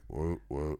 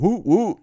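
First: It is said flatly, without emotion. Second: It is said with lively, excited energy.

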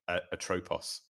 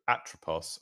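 First: The stress is on the second syllable. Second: The stress is on the first syllable.

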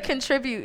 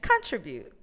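First: The stress is on the second syllable. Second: The stress is on the first syllable.

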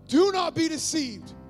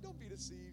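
First: It is said with strong emotion. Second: It is said in a flat, casual way.

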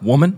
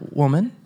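First: The word is said harshly, without warmth. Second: The word is said warmly and affectionately.

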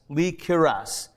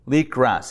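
First: A short i vowel is heard between k and r. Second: The k runs straight into the r. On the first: The speaker calls it right. "you would likely give it a little bit of extra of the I" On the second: The speaker calls it wrong. "most people are not being so precise when they pronounce it, and they'll just go likras"

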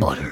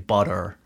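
First: British accent, the t is crisp and clear. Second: American accent, the t is a soft flap. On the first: "Whereas I'm there going" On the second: "they'd just use an American accent. They'd say butter"

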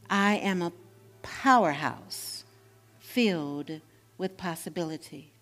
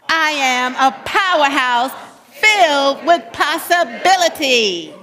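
First: It is said calmly with pauses between words. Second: It is said with lively, loud energy.

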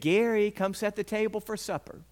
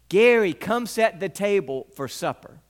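First: The line is called at a quieter volume. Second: The line is called out loudly.

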